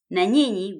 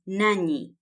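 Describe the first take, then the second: First: It is said as two full words. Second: It is said as one contracted word. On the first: "Na nyinyi becomes nanyi" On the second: "Na nyinyi becomes nanyi"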